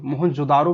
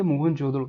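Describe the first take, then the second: First: मोहनजोदारो said with long "daa", plain r; Mohenjodaro with long DAA. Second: मोहनजोदड़ो said with a flapped ड़ो ending; Mohenjodaro with a short DRO. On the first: Teacher gives the spelling found in books, मोहनजोदारो with long "daa". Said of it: "भी आपको कई किताबों में लिखा हुआ". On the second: Teacher names the site for students, मोहनजोदड़ो with flapped ड़ो. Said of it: "इसका English pronunciation करते हो". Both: Shown as a demonstration.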